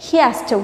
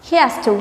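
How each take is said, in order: No difference in how they are said.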